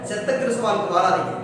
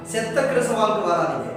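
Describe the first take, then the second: No difference in how they are said.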